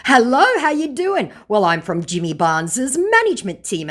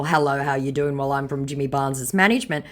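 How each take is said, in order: First: Hammed-up cheerful scam greeting; mock scammer voice. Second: "Hello, how you doing?" rattled off fast and flat, "management" thrown away; deadpan quick mockery; flat dismissive recital. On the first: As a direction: chirp it like an eager fake rep. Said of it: "laughing emoji; said my scammer". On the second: Shown as a demonstration. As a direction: read it back bored and quick. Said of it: "in response to the whole".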